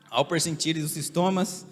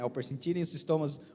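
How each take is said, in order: First: The phrase is spoken at a slow, deliberate pace. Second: The phrase is rattled off very quickly. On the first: "Já não é assim" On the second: "aí fala bem rapidinho"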